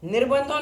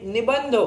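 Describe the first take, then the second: First: An r sound comes before the b. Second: No r sound comes before the b. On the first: The speaker calls it wrong. "निर्बंधो नहीं" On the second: The speaker calls it right.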